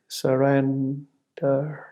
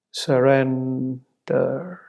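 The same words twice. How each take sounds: The two takes are said the same way.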